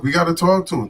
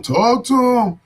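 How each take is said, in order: First: Said in the usual way. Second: Higher and louder, punched out; shouted catchphrase. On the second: Real, not acted. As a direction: call it out like a slogan.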